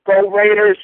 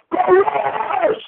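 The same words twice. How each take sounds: First: Said in the usual way. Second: High, drawn-out fan yell; rallying cheer. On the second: Real, not acted. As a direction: stretch it into a sign-off battle cry. Final rallying yell to sign off.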